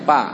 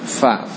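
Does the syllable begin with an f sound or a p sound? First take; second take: p; f. First: It begins with a p sound. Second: It begins with an f sound. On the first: The speaker calls it wrong. "jangan dibaca pa" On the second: The speaker calls it right. "Fa makhrajnya dari perut bibir bawah"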